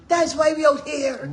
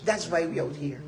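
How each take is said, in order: First: Louder, higher, slow and drawn out; loud rallying emphasis; rallying cry. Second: Said in the usual way. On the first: Real, not acted. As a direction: raise it into an emphatic rally call.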